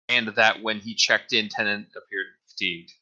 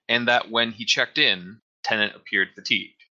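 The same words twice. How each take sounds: First: There is no pause after 'checked in'. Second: There is a pause after 'checked in'. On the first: The clauses run together confusingly. The speaker calls it wrong. "Like there's no break in it" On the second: The clause about checking in is set apart. The speaker calls it right. "I feel like it should be"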